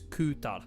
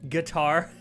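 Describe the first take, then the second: First: The vowel is U and the final R is barely heard. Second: It sounds like guitar, with a full final R. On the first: The speaker calls it right. "You barely even pronounce the R" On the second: The speaker calls it wrong. "he really did say it like guitar"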